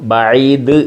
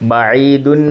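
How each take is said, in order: First: The word stops on its final consonant. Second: The word ends with an added -un syllable. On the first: "ബഈദ് എന്ന് നിർത്തിയത്" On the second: "ബഈദുൻ ആണ്"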